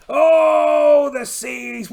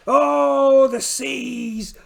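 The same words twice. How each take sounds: First: Full-throated shout, much higher on the Oh; shouted cry. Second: Big theatrical cry that drops off; dramatic cry. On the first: Pirate captain shouting at the stormy seas, loud theatrical cry. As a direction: bellow Oh, the seas! over the storm. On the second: Pirate captain bemoaning the rough seas, theatrical cry. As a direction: wail at the ocean like a stage pirate. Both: Acted.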